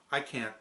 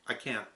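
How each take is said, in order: Both takes have the same delivery.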